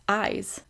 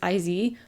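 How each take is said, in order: First: The name is said as one single word. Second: The name is said as two separate letters. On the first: The speaker calls it right. "but no, it's" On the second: The speaker calls it wrong. "I thought it was"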